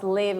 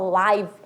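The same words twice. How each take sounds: First: The vowel is short, as in 'give'. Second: The vowel is long, as in 'five'. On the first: To live or reside somewhere. "Não vou falar mais live" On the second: Happening in real time, not recorded. "vou falar live. E significa o nosso famoso ao vivo"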